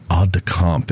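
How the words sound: It is pronounced in a French-style way. "you said aide de camp"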